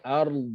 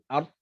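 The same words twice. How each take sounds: First: The final consonant sound is held long. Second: The final consonant sound is cut short. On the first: The speaker calls it right. "Sedangkan bunyi dia ard. Ada istitalah dekat situ" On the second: The speaker calls it wrong. "ramai bentuk ard"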